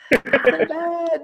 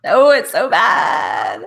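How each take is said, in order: First: Higher, slow, pained repeat; drawn-out high-pitched wince; cringing repeat. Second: Slow, drawn-out laughing protest, a bit louder; stretched-out cringing exclamation; embarrassed outcry. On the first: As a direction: echo the protest up high in mock despair. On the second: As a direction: groan it out, embarrassed by your own accent. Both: Real, not acted. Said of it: "Don't make me do it again".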